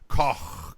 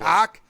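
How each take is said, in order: First: The word ends in a throaty, raspy sound. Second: The word ends in a plain hard k. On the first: The speaker calls it right. "Get a little spit happening there" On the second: The speaker calls it wrong. "No, I didn't say cock"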